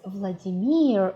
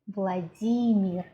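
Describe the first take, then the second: First: It has the English stress pattern. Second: It has the Russian stress pattern. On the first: The speaker calls it wrong. "what we call as Vladimir in English" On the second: The speaker calls it right. "we call our Russian president Vladimir"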